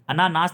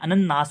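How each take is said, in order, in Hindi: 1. इसमें लंबा 'a' है और सिंगल n है। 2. इसमें छोटा 'a' है और डबल n है। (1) "अनानास नहीं होता है" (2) "अनन्नास होता है"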